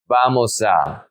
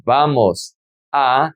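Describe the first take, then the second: First: "vamos a" joined as one word, vamo-sa; linked words. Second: "vamos a" as two slow separate words, pause between. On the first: Teacher showing how the words sound together, linked. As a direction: carry the s of "vamos" into "a". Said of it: "it's gonna be". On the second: Teacher showing the words before joining them, said separately. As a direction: say "vamos", stop, then "a" on its own. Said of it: "how do we pronounce these words together". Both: Shown as a demonstration.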